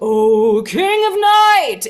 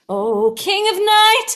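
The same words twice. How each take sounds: First: The voice is lower and darker, without lift. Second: The voice is higher and brighter, with a smile. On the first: "instead of" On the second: "lifting things up and sitting a little bit like a little bit higher. You've got a little bit more smile in your voice"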